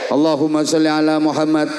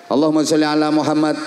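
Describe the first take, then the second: No difference in how they are said.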